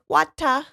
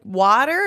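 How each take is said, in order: First: It is said with an Australian accent. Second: It is said in the speaker's usual accent. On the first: "she was like" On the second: "I was like"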